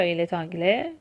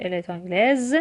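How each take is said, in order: First: 'آنگله' ending on the vowel, no s; silent final consonant. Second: 'آنگلز' with a clearly sounded final z; last consonant of 'آنگلز' fully voiced; fully pronounced ending. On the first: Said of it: "تلفظ نمیشه حروف پایانی". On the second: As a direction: finish 'آنگلز' on a buzzing z. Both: Shown as a demonstration.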